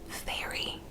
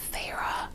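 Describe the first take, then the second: First: The name sounds like the word fairy. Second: The name does not sound like fairy. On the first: The speaker calls it wrong. "the way that I was first pronouncing it" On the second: The speaker calls it right. "the name is pronounced Feyre"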